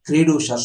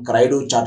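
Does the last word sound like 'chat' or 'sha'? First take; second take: sha; chat. First: It is said the French way, ending 'sha'. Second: It is read as spelled, ending 'chat'. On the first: "ఇది ఒక French language కి సంబంధించిన పదం" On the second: "క్రైడు చాట్ అన్నట్టుగా కనిపిస్తున్నప్పటికీ"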